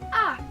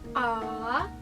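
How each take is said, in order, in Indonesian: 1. Nadanya jatuh tajam dari tinggi ke rendah. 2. Nadanya turun rendah dulu, lalu naik. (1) "kayak orang bentak, turun ke bawah" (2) "ada turunnya dulu"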